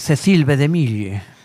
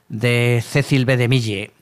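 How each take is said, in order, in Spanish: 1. El nombre se dice con acento francés. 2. El nombre se dice con acento español.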